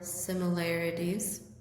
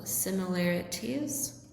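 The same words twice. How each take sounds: First: The consonant before the ending is a soft D. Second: The consonant before the ending is a clear T. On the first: "or a D sound" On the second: "with a T sound"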